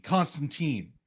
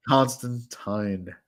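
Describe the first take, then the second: First: Put-on Constantine ending in TEEN, softer. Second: Constantine slowed, ending in TINE. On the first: Co-host insisting on his version, Constantine said with teen. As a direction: say Constantine to rhyme with seen. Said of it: "It's teen". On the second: Host correcting co-host's pronunciation, Constantine slowly said with tine. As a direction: draw out Constantine to rhyme with fine. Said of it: "He says Constantine wrong". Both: Shown as a demonstration.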